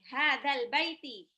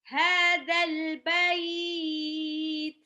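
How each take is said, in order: First: The last word ends in a short vowel. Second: The last word ends on a lengthened diphthong. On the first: The reader keeps going without stopping. "Misalkan ini" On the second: The reader stops at this word. "Kalau diwakafkan jadi"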